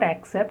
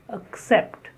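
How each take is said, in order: First: The first vowel is a full vowel. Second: The first vowel is a weak schwa. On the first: The speaker calls it wrong. "It is not accept" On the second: The speaker calls it right. "The first syllable is the schwa sound"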